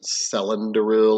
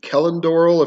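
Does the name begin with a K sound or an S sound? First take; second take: S; K. First: The name begins with a soft S sound. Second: The name begins with a hard K sound. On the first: "a lot of people would want to pronounce it" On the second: "if you're doing the hard C"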